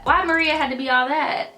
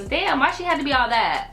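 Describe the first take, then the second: First: Higher, rising incredulous scoff; exasperated mock. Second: Incredulous, raised-pitch scoff; exasperated mock. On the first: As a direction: push the disbelief further. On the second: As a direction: scoff at her overreaction. Mocking the girl's drama. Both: Real, not acted.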